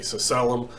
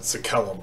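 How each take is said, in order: First: The second consonant is a soft s sound. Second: The second consonant is a hard k sound. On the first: "an S and C both having a sound" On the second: "I pronounce it Sekelum"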